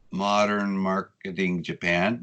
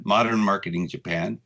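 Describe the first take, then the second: First: "Modern Marketing Japan" slowly, word by word; slow, careful naming. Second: Said in the usual way. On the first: Real, not acted. Guest names his blog for listeners, "Modern Marketing Japan" said slowly.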